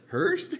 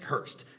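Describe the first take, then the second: First: The voice rises questioningly on the name. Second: The name is said forcefully, falling.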